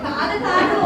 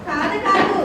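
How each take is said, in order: Both takes have the same delivery.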